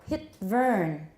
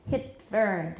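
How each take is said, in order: The two takes are said the same way.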